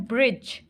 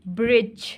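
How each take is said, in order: The two takes are said the same way.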